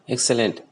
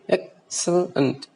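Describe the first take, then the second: First: All syllables get equal stress and pitch. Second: The first syllable is loud and stressed.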